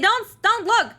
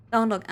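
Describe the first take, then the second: First: Much higher and louder don't look; high squeaky plea. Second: Said in the usual way. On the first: Acted. Caught changing, squeaking at viewers not to look. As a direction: squeak it out in alarm.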